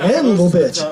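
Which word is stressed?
Anvil. The stress is on the word Anvil.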